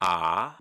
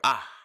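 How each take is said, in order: First: The vowel is held for a long time. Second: The vowel is held only very briefly.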